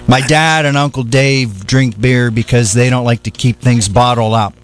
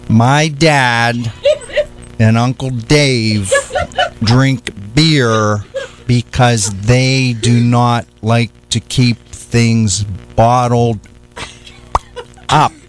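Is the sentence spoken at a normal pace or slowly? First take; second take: normal; slowly. First: The sentence is spoken at a normal pace. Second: The sentence is spoken slowly and deliberately.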